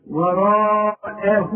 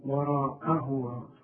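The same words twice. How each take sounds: First: وراءه, slow and loud, heavy ر and the و lengthened; teacher modelling the correct recitation; correct pronunciation. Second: وراءه drawn out slowly, a quiet mistaken reading; teacher showing what not to recite; wrong pronunciation. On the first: Shown as a demonstration. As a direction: recite وراءه slowly and fully, with emphasis. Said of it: "أعلمك إزاي تنطق وراءه". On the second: Retold or imitated. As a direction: softly imitate the wrong وراءه. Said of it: "برضه ما نقولش وراء".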